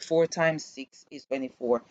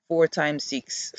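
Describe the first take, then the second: First: Said in the usual way. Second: Four times six, said slowly and spaced out; a drawn-out "four times six", each word stretched; slow, drawn-out sum. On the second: Shown as a demonstration. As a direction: spell out "four times six" like a child working it out.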